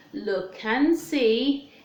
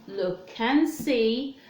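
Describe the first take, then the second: No difference in how they are said.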